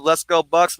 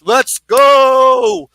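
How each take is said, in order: First: Said in the usual way. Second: High, loud, long-held "go"; excited rallying shout. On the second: Real, not acted. Host cheering on the Bucks, excited shout. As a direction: belt it out like a fan.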